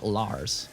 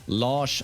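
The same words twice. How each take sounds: First: The name is said with an English pronunciation. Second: The name is said with a Swedish pronunciation. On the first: The speaker calls it wrong. "Rather than La Lars" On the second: The speaker calls it right. "That's the way you pronounce it for real in Swedish"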